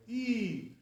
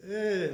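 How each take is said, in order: First: Long, raised EE; E as a tight high ee, drawn out; all the way high. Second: Lax, held EH; not so high. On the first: Teacher contrasting yud with chirik, high long E. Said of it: "all the way". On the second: Teacher showing true chirik, lax held eh. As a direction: eh as a lowered, open ee, drawn out. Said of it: "not so high like that". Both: Shown as a demonstration.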